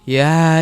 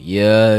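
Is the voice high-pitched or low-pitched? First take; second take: high-pitched; low-pitched. First: The voice is thin and high-pitched. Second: The voice is deep and low-pitched. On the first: "So highs are like" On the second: "And lows are like"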